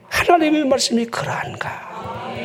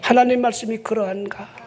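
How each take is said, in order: First: Earnest. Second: Said in the usual way. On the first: Shown as a demonstration. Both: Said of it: "간절하게".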